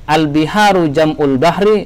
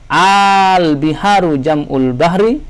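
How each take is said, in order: First: The opening vowel is short and clipped. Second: The opening vowel is held moderately long. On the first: The speaker calls it wrong. "Salah kalau kita mengatakan" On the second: The speaker calls it right. "tetapi ... dikasih panjang ya"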